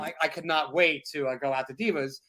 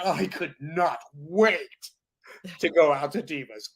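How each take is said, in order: First: It is read flatly, like a chore. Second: It is said with lively excitement.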